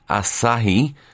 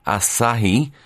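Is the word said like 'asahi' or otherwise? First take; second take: asahi; asahi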